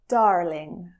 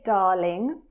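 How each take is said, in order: First: The R is clearly pronounced after the vowel. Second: The R is dropped, with a long A. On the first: "Whereas in American English, you would hear that R more" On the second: "So when we say darling, you really hear a long R sound"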